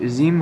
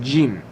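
First: The first sound is said softly and lightly. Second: The first sound is said strongly and forcefully. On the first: The speaker calls it wrong. "অনেকে এই অক্ষরটাকে জিম উচ্চারণ করে থাকেন। তো জিম হবে না" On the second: The speaker calls it right. "এই অক্ষরটা অনেক শক্তিশালী"

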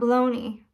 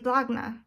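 First: The word ends with a 'nee' sound. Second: The word ends with a 'nuh' sound. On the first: "Not baloney" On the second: "I say blagna"

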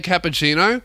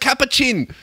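First: The word ends with a full final O sound. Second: The word ends without the final O sound. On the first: "They don't say cappuccino" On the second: "the O gets left out"

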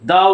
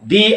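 First: The word ends in a short 'uh' vowel. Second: The word ends in a long 'ee' vowel. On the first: The next word starts with a consonant. "কেন আমি একবার দা বললাম" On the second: The next word starts with a vowel. "কেন আমি আরেকবার দি বললাম?"

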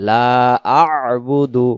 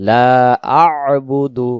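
The two takes are said the same way.

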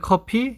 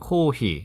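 First: The second syllable starts with a p sound. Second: The second syllable starts with an h sound. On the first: "한국어의 커피" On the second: "일본어의 코히"

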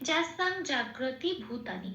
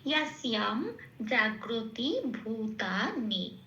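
First: The first word starts with j and ends in ng. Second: The first word starts with y and ends in m. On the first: "এইটুকুনি হচ্ছে আমার second লাইনের প্রথম পাঠটা" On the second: "সংস্কৃত উচ্চারণটা আমরা কিরম পেলাম?"

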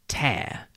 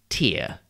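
First: The word rhymes with pair. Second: The word does not rhyme with pair. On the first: It means to pull something apart by force. "tear rhymes with pair" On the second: It names a drop that comes from the eye. "T-E-A-R is pronounced tear when it is something that comes out of your eye"

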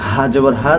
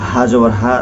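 The two takes are said the same way.

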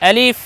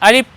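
First: The sound is made with teeth on lower lip. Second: The sound is made with both lips together. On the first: The speaker calls it right. "ওপরের দুই দাঁত নিচের ঠোঁটের সঙ্গে লাগাবো" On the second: The speaker calls it wrong. "এ বর্ণকে আমরা দুই ঠোঁট দিয়ে নয়, এরকম নয়"

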